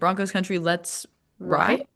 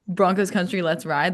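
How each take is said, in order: First: The voice rises at the end like a question. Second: The voice falls at the end like a statement. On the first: It asks whether they are ready to ride. "let's make it a question" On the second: It is a rallying call. "instead of"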